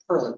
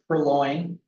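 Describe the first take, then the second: First: The second syllable sounds like 'lin'. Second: The second syllable sounds like 'loin'. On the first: The speaker calls it right. "but it's purlin, P U R L I N" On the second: The speaker calls it wrong. "sometimes you'll hear, you pronounce it purloin"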